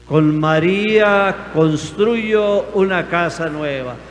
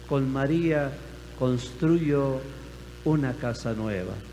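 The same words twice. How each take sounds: First: The phrase is said loudly. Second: The phrase is said at normal loudness.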